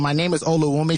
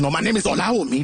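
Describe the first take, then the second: First: It is said in a Canadian accent. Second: It is said in a Nigerian accent.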